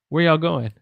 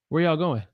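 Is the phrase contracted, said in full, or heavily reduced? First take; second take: reduced; reduced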